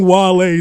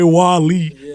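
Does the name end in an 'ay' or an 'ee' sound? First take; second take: ay; ee. First: The name ends with an 'ay' sound. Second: The name ends with an 'ee' sound. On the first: The speaker calls it right. "my name [name]" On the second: The speaker calls it wrong. "don't say [name]"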